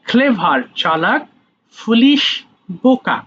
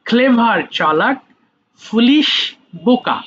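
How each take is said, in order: The two takes are said the same way.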